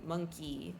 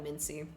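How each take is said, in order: First: The name is said so it sounds like 'monkey'. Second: The name is said so it sounds like 'Mincy'. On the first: "I don't know if you're supposed to pronounce it monkey" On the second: "but I call it a Mincy"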